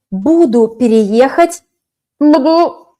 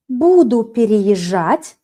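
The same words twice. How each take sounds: First: Буду rising, louder on the second буду; wrong form. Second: Slow, even Буду переезжать; correct form. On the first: Teacher marks буду переехать as wrong. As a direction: flag буду переехать as the mistake. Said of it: "can't use". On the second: Teacher gives the correct form slowly. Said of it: "perfect, I will be moving". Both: Shown as a demonstration.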